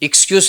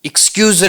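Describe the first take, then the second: First: The word ends with an s sound. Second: The word ends with a z sound. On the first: It means a pretext. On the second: It means forgive me.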